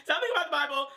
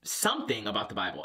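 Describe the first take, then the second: First: Much higher, squeaky repeat of the phrase. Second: Said in the usual way. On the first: Shown as a demonstration. Repeating the dad's topic to viewers, squeaky and high. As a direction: pitch it way up in a squeaky voice.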